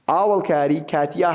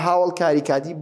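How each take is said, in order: First: The first word begins with a vowel sound. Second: The first word begins with an h sound. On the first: "both are correct" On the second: "both are correct"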